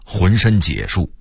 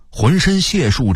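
First: 浑身解数 with 解 as jiě, not xiè; misreading of 解. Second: Said in the usual way. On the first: Shown as a demonstration. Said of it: "我念了好几年的". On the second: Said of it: "我念了好几年的浑身解数".

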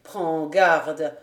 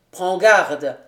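First: "Prends garde" echoed in mockery; mock the captain's "Prends garde"; ironic repeat. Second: Louder, "prends garde" as a firm threat; stern warning. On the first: Lapierre mocking the captain's warning, ironic. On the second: Captain warning the valet, a stern "prends garde". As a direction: warn him sharply with "prends garde". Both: A narrator's reading. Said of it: "répéta ironiquement Lapierre".

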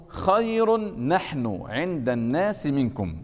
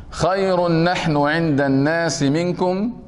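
First: Slow verse recitation. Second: Verse chanted slowly and loudly, leaning on خير; loud slow verse recitation. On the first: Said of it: "قوله". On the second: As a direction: declaim the line slowly with force. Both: Shown as a demonstration.

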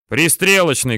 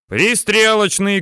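First: Said in the usual way. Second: High, slow, drawn-out callout; shouted down. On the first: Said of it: "говорит Аким". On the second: A narrator's reading. Tankman relaying shell type down into tank, drawn-out shout. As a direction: shout the order down, stretching it. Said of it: "кричит вниз танкист Алексеич".

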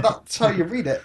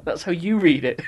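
First: HOW lifted in "that's how you read it"; stress on HOW. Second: YOU punched in "that's how you read it"; stress on YOU. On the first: Podcaster insisting on his reading, stress on HOW. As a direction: lean on "how", pitched higher. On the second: Co-host rebutting his friend, stress on YOU. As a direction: throw the weight onto "you", with a laugh. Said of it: "No, that's how you read it". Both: Real, not acted.

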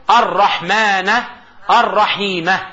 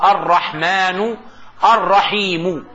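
First: الرحمنَ الرحيمَ with the final a clearly voiced; الرحمنَ الرحيمَ بالنصب; ending in a. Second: الرحمنُ الرحيمُ with the final u clearly voiced; الرحمنُ الرحيمُ بالرفع; ending in u. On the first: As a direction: say الرحمن الرحيمة closing each word on an a vowel. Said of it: "أو النصب". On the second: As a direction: say الرحمن الرحيم closing each word on a u vowel. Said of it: "قطعها إلى الرفع". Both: Shown as a demonstration.

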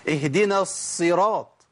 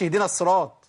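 First: اهدنا الصراط slow, every letter given its due; teacher's correct model; careful recitation. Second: اهدنا الصراط run together quickly, a letter dropped; teacher imitating the mistake; rushed recitation. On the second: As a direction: hurry through اهدنا الصراط. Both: Shown as a demonstration. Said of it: "ما أقولش".

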